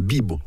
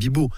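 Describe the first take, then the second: First: The stress is on the first syllable. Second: The stress is on the last syllable. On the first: The speaker calls it right. "Si on met l'accent tonique, c'est sur le i" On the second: The speaker calls it wrong. "Il ne faut pas mettre l'accent tonique sur la dernière. Ce n'est pas bibo"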